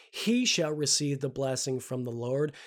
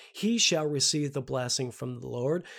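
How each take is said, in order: Both takes have the same delivery.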